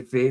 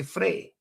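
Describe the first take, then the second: First: "fae" without an r; Doric "fae". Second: "frae" higher, with an r after f; Dundee "frae". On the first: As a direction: demonstrate local "fae" for from. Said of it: "So I say". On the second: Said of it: "they would say". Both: Shown as a demonstration.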